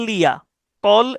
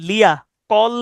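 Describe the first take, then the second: Both takes have the same delivery.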